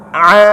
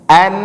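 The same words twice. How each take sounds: First: "a" squeezed from the middle of the throat; Arabic ain. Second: "An" started with a clean glottal onset; plain hamza a. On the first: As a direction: make "a" an ain, constricted. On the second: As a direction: open "An" lightly, no throat squeeze. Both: Shown as a demonstration. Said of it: "Bedakan a dengan in".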